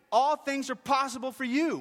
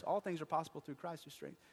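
First: High, full-voiced shouted prayer; crying out. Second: Said in the usual way. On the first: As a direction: shout it up to God in desperate faith. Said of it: "He cried out".

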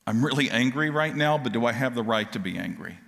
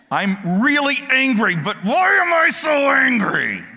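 First: Said in the usual way. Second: Higher and louder, breaking into a half-laugh, then drawn out; frustrated outburst. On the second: Pretend. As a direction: blurt it out like someone fed up with their own temper. Cain's inner voice, outburst.

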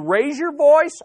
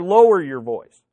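First: Raised voice. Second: Lowered voice. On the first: Preacher showing news versus gossip, raised voice. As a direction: lift "raise your voice" higher and louder. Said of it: "you raise your voice". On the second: Preacher showing news versus gossip, lowered voice. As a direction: let "lower your voice" sink in pitch. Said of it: "or lower your voice". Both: Shown as a demonstration.

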